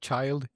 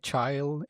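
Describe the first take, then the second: First: The word is said the standard way. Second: The word is said in the local dialect. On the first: This is how others usually say it. "instead of child" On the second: This is how the group talks. "We would say child"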